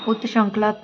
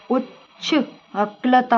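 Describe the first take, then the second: First: "उत्श्रंखला" starting "ut-shran"; wrong t-sh cluster. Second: "उच्च अक्लता" broken up, starting "uchchh"; correct ch cluster. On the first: Teacher shows the mistake, "ut-sh" in "उत्श्रंखला". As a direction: keep t plus sh in "उत्श्रंखला". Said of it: "ना होके". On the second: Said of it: "होता है". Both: Shown as a demonstration.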